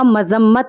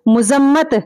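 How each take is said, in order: First: The first vowel is a. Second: The first vowel is u. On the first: The speaker calls it right. "सही तलफ़्फ़ुज़ ... वो होगा मज़म्मत" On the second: The speaker calls it wrong. "मुज़म्मत सही लफ्ज़ नहीं है"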